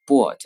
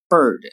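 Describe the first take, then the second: First: Bird said with a Chinese bo vowel added after the b; wrong Chinglish bird; pinyin-style bird. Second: Bird said short with a clean b burst, no vowel after; crisp English bird. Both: Shown as a demonstration. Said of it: "不能读成bird".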